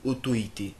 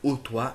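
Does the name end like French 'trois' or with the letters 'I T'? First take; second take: letters; trois. First: The name ends with the letters 'I T'. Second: The name ends sounding like French 'trois'. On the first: The speaker calls it right. "mais on dit auto-I T" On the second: The speaker calls it wrong. "on ne dit pas O trois"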